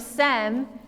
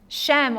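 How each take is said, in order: First: The name begins with an s sound. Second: The name begins with an sh sound.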